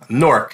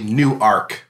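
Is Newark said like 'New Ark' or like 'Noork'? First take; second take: Noork; New Ark. First: It is squeezed into one short syllable, 'Noork'. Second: It is said as two clear parts, 'New Ark'. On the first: This is how the New Jersey city is said. "it's N-O-O-R-K" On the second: This is how the Delaware city is said. "that's how they pronounce it, in Newark, Delaware"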